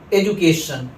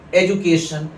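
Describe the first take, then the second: First: The middle consonant is a 'j' sound. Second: The middle consonant is a 'j' sound.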